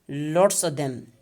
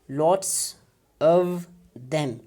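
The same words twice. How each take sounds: First: The v sound in 'of' is dropped. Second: The v sound in 'of' is pronounced. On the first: "so now when we delete uh, this uh, sound, we get" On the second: "So it will be transcribed like this"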